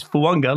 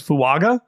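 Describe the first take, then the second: First: "Fuanga" as foo-AHNG-ah, with an audible N; correct Polynesian pronunciation. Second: "Fuaga" as foo-AH-gah, with no N; mistaken pronunciation. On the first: Relaying the player's correction, "Fuanga" with the N sounded. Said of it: "The N is there". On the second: Admitting how he used to say it, "Fuaga" without an N. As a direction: leave out any N in "Fuaga". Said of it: "I thought it was Fuaga". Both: Shown as a demonstration.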